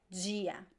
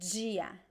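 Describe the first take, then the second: First: It starts with a j-like sound. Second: The same.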